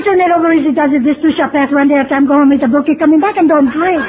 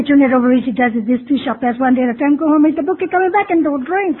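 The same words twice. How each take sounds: First: Slogans rattled off a bit louder and brighter; parroting old-timers' slogans. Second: Same slogans, wearily repeated. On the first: Old-timers answering a newcomer, brisk, confident slogan recital. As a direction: reel off the sayings like they're obvious answers. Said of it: "Hey, you say". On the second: Another old-timer gives the newcomer the same answer, tired rote repeat. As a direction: say it like you've heard it a hundred times. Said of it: "And again they say". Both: Retold or imitated.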